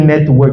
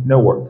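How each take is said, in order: First: Said in the usual way. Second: American accent, soften the t in "network". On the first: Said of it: "Quand tu dis network". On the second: Shown as a demonstration. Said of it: "il va dire network".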